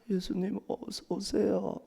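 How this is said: The greeting sounds heavy and full of sorrow. The sister greeted him while grieving her brother's death. The speaker calls it right. "너무너무 슬픔 가득한 모습으로"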